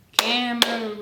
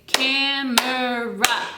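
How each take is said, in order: First: Said in the usual way. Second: Camera drawn out slowly, each syllable apart: cam-er-a. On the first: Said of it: "count together". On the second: Shown as a demonstration. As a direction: stretch Camera into three clear beats. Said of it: "But I would say".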